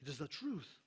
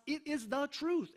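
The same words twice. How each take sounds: First: Softer, lower "It is the truth" with a falling end on "truth"; quiet repeat. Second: Slow, stressed "truth", voice lifted high; emphatic truth. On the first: Preacher to congregation, quietly repeating the truth. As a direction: drop the voice and let "truth" settle down. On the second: Preacher to congregation, stressing "truth" high and slow. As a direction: lean hard on "truth", pitch up. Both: Acted.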